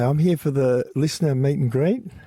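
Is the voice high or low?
high. It is said in a raised, higher voice.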